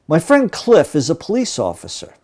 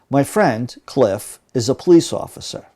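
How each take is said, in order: First: It flows without pauses around Cliff. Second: It slows and pauses around Cliff.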